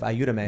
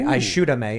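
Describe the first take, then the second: First: The middle consonant sounds like y. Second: The middle consonant sounds like sh. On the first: It is the Mexican way of saying it. "instead of" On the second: It is the Uruguayan way of saying it. "So she would say, ayúdame"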